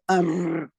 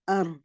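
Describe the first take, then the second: First: The r is rolled with strong, long trilling. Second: The r has only a light, brief trill. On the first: The speaker calls it wrong. "Don't make the trilling. Don't say ar. That's wrong" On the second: The speaker calls it right. "There's light trilling to the sound"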